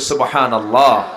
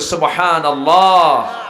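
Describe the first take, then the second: First: It is said loudly. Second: It is said even more loudly.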